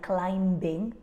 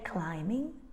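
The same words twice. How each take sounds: First: The B sound is pronounced after the M. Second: The B sound is silent after the M. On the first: The speaker calls it wrong. "we don't say things like climbing" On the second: The speaker calls it right. "We say climbing"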